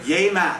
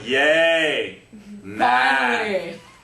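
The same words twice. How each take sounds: First: It sounds sincere and enthusiastic. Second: It sounds sarcastic and mocking.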